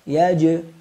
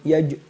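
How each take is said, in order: First: The j has a clear, audible bounce. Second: The j has a weak, barely audible bounce. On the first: The speaker calls it right. "Silakan disimak yang tepat" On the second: The speaker calls it wrong. "ini qalqalahnya tidak jelas"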